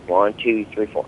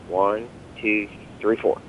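First: The counting is at a faster tempo. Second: The counting is at a slower, steady tempo.

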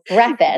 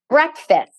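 First: The word is run together and sounds odd. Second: The word is said carefully, as breck-fist. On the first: The speaker calls it wrong. "you say it in such a fucked up way" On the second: The speaker calls it right. "Breck. Fist"

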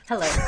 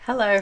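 First: It is said small and quiet. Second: It is said big and loud.

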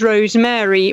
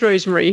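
First: The Mary part is fully stressed. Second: The Mary part is reduced and unstressed. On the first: "the Mary bit is more important" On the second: "Rosemary is always Rosemary here"

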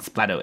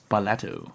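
First: It is said as two syllables, splat-to. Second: It is said as three syllables, spa-la-to. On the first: The speaker calls it wrong. "It's not Splatto" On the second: The speaker calls it right. "It's Splatto. S-P-A-L-A-T-O"

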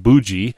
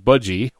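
First: The first vowel sounds like 'oo'. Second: The first vowel sounds like 'uh'.

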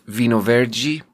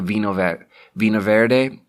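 First: It is said with a Portuguese-style pronunciation. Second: It is said with an English-style pronunciation. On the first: The speaker calls it right. "it's actually pronounced" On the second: The speaker calls it wrong. "is how I used to pronounce it"

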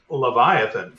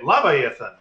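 First: The word is pronounced the standard way. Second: The word is pronounced the misread way. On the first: Someone else corrects the speaker. The speaker calls it right. "I think you mean" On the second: The speaker has only read the word. The speaker calls it wrong. "If you say a word wrong"

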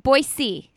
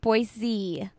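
First: The middle consonant is an s sound. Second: The middle consonant is a z sound. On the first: This is how local residents say it. The speaker calls it right. "So you say C, everybody" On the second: This is how outsiders from the Midwest say it. The speaker calls it wrong. "not Boise"

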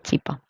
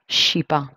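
First: It begins with a ch sound, Paraguayan style. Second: It begins with a sh sound, Brazilian style.

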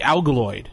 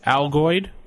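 First: The word has an extra l sound inside. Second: The word has no extra l sound inside. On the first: The speaker calls it wrong. "how many L's did you just put in it?" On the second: The speaker calls it right. "There you go"

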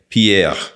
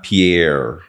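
First: The R is a throaty French R. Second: The R is a retroflex American R. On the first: The speaker calls it right. "I remember that R sound" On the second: The speaker calls it wrong. "not Pierre"

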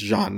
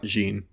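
First: The name is pronounced the French way. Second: The name is pronounced the English way. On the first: The speaker calls it right. "I think it's Jean" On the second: The speaker calls it wrong. "not Jean"

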